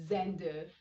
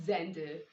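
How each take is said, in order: The two takes are said the same way.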